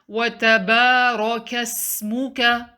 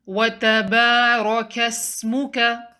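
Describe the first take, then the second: No difference in how they are said.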